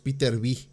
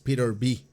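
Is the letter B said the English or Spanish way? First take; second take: Spanish; English. First: The letter B is said the Spanish way. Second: The letter B is said the English way. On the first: The speaker calls it wrong. "normalmente decimos Peter B" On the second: The speaker calls it right. "él lo está diciendo correctamente, es Peter B"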